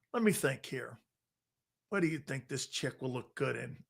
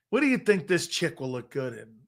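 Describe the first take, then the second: First: Muttered to himself, much softer; half-whispered pondering, as if alone; playful thinking aloud, much softer; mock musing murmur. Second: Said in the usual way. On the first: Musing which car for a date.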